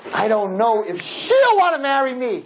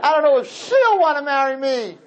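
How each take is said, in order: First: A hint of a hesitant young man, higher; nervous boy doubting the marriage; lightly voiced nervous groom. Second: Laughing mock groom. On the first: Groom telling the rabbi he may change, hesitant. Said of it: "what would we say?".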